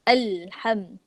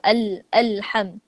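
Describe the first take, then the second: First: The lam is held smoothly into the word. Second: The lam is cut off and restarted. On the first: The speaker calls it right. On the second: The speaker calls it wrong.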